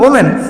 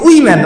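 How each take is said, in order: First: The word begins with a plain 'o' sound. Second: The word begins with a 'wi' sound. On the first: The speaker calls it right. "আসলে উচ্চারণটা ছিল ওমেন" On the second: The speaker calls it wrong. "কিন্তু এটাকে বলছে উইমেন"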